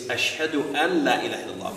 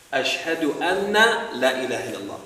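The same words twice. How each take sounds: First: Said in the usual way. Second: "anna" with a long doubled n and final a; doubled noon. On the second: Shown as a demonstration. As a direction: wrongly double the n in "anna", louder. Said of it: "put a tashdid on the noon".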